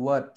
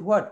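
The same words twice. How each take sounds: First: What starting on a clean w, "wat"; h removed. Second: What started with an h, "hwat"; mistaken h sound. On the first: Teacher tells guardians how to say it, h-less "wat". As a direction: say what with no হা sound, just "wat". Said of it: "আমাদেরকে বলতে হবে what". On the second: Teacher shows what we learnt all our lives, "hwat" with h. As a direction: put the হা sound at the front of what. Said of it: "এই হা সাউন্ডটা আমাদেরকে সরিয়ে ফেলতে হবে". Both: Shown as a demonstration.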